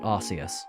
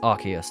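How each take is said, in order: First: The first syllable sounds like 'arse'. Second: The first syllable does not sound like 'arse'. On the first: The speaker calls it wrong. "not Arceus, by the way. If you pronounce it Arceus, you're just saying arse" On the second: The speaker calls it right. "It's Arceus"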